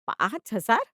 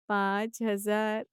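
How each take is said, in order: First: Sharp rising shock on हजार; incredulous echo; disbelieving question. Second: पाँच हजार drawn out slowly and levelly; slow shocked repetition; stunned echo. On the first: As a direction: fling back पाँच हजार as a loud question. Mother hears the real amount. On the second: Mother stunned by the amount. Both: Acted.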